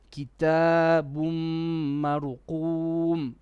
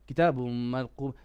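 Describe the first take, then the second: First: It is read slowly with longer words. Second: It is read fast and hurried.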